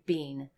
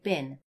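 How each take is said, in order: First: The vowel is long, like 'bean'. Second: The vowel is short, like 'bin'. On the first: The speaker calls it wrong. "We don't actually say been" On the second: The speaker calls it right. "when we actually say it, we say bin"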